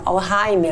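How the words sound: It is pronounced the German way.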